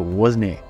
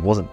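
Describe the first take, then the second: First: It is said with a Shetland pronunciation. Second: It is said with a standard pronunciation. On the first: "why they say wasn't" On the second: "instead of wasn't"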